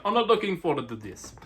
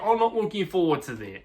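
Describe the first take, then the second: First: A bad imitation of a Spanish accent, leaning Italian; hammed-up Spanish accent, lightly done; mock Spanish accent. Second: Said in the usual way. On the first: Rider Prado voiced as dreading the race, in a mock Spanish accent. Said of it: "or in his Spanish accent". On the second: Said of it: "he's probably saying".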